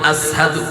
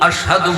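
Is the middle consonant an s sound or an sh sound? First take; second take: s sound; sh sound. First: The middle consonant is a hissing s sound. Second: The middle consonant is a hushing sh sound. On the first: This is how a man with a cut tongue said it. The speaker calls it wrong. "সিন বলতেন, শিন উচ্চারণ করতে তিনি পারতেন না" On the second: This is the correct form of the word. The speaker calls it right. "আশহাদু বলতে পারতেন না"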